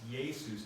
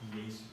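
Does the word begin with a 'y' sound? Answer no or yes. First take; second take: yes; no. First: The word begins with a 'yay' sound. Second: The word does not begin with a 'y' sound. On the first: The speaker calls it right. "because of the yod sound, it's pronounced yay" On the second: The speaker calls it wrong.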